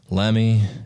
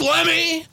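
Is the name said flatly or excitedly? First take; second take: flatly; excitedly. First: The name is said flatly, without excitement. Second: The name is said with excitement.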